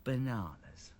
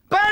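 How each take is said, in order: First: Hushed, low story voice; soft, restrained near-whisper. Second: Sudden full-volume story shout; big, startling yell. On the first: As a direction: say it very softly, toned right down. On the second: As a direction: belt it out as the angry character. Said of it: "Banana Bill would shout". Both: A narrator's reading.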